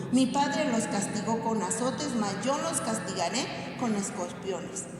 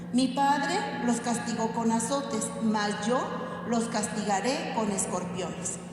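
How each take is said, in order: The two takes are said the same way.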